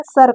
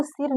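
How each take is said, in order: First: सर with a short "uh" vowel; सर, vowel as short Hindi a, not i; short a sound. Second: सिर with a short i; wrong i reading. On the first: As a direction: say सर as "sur". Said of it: "सर कहेंगे". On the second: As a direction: say सिर as spelt, "sir" with an "ih". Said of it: "इसको सिर नहीं कहेंगे". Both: Shown as a demonstration.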